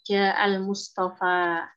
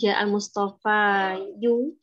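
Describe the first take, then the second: First: The name ends with a plain a sound. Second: The name ends with an added u sound. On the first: The speaker calls it right. "Lumahnya dikira-kirakan pada alif di sini" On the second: The speaker calls it wrong. "jadi bukan"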